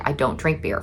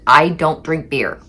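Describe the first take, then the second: First: Said in the usual way. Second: Slow, weary, spelled-out refusal; exasperated repeat. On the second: Retold or imitated. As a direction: say it slowly, tired of repeating yourself. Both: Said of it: "For, like, the ninetieth time".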